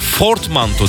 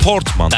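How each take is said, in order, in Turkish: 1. Kelime f sesiyle başlar. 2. Kelime p sesiyle başlar. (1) "Fortmanto derler ona" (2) "Doğrusu portmanto"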